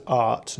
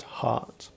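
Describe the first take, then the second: First: "art" for heart, starting straight on the vowel; dropped H. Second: Said in the usual way. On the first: Shown as a demonstration. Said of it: "they don't pronounce H's". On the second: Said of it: "not heart".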